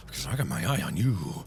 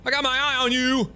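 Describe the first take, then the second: First: Quiet, very low watchful warning; hushed low threat. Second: High, called-out warning; high insistent threat; raised warning. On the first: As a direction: warn them softly and low. Warning game character quietly. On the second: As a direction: holler the warning higher. Warning game character loudly. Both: Pretend.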